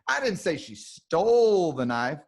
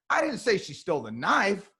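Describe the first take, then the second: First: The word stole carries the main stress. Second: The word knife carries the main stress. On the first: She took it some other way, not by stealing. "Oh, she borrowed it" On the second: She stole something, but not the knife. "we know she's a thief, but the knife she did not take"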